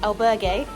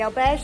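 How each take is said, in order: First: The word is pronounced the Spanish way. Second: The word is pronounced the French way. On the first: The speaker calls it right. "Albergue is apparently the correct Spanish pronunciation" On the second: The speaker calls it wrong. "I've been saying it in French up until this point"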